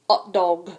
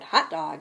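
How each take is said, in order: First: The starting h sound is silent. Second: The starting h sound is pronounced.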